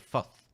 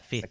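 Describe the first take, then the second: First: It is said in a New Zealand accent. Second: It is said in a non-New Zealand accent. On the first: "you say fifth" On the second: "instead of uh, fifth"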